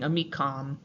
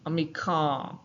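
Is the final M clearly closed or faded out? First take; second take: closed; faded. First: The final m is fully closed with the lips. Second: The final m fades without the lips closing. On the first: "instead of saying amicam" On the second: "they would kind of start saying it and then forget halfway through"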